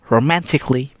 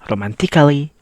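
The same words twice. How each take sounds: First: The A in the ending is silent. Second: The A in the ending is sounded. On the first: The speaker calls it right. "the A is silent, so we only have to read romantically" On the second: The speaker calls it wrong. "You not read it like romantically"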